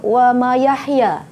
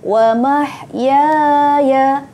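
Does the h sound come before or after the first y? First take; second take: after; before. First: The h comes after the first y sound. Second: The h comes before the first y sound. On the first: The speaker calls it wrong. "Ramai Ustazah dapati murid-murid akan tersilap di sini. ... Terbalik" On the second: The speaker calls it right. "perhatikan betul-betul"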